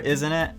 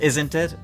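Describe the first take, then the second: First: The T in "isn't" is barely pronounced. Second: The T in "isn't" is clearly pronounced. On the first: "he just kind of half-asses it" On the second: "the hard T of "isn't,""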